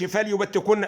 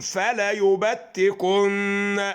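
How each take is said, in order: First: The vowel after the lam is dropped. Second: The vowel after the lam is long. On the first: The speaker calls it wrong. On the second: The speaker calls it right.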